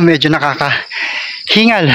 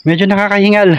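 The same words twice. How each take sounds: First: Out of breath. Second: Said in the usual way. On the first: Real, not acted.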